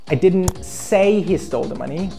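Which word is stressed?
say. The stress falls on the word say. It was communicated in another way, not spoken. "I wrote or I texted he stole the money"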